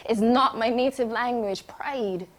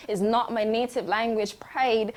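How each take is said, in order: Both takes have the same delivery.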